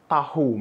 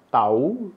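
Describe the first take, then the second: First: Tahu in two syllables, 'TAH-hoo'; sounded h in tahu. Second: Tahu run together as 'TAH-oo'; silent h in tahu. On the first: Teacher naming the food, tahu with sounded h. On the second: Teacher showing a homograph, tahu without the h. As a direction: drop the h in tahu, 'tau'. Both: Shown as a demonstration. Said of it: "Bacanya berbeda".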